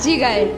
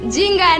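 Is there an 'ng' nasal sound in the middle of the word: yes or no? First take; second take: no; yes. First: The word has no ng sound in the middle. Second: The word has an ng sound in the middle. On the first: The speaker calls it right. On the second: The speaker calls it wrong. "জিঙ্গায় না"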